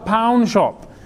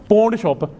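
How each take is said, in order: First: The vowel sounds like 'ow', as in pound. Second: The vowel sounds like 'aw', as in pawn. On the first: The speaker calls it right. "it's not pawn, it's pound shop" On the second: The speaker calls it wrong. "they pronounced a shop in a wrong way"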